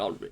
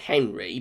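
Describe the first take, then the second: First: The name is said with a French pronunciation. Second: The name is said with an English pronunciation. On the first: "like the French French pronunciation" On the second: "I know some people um, uh, pronounce it Henry"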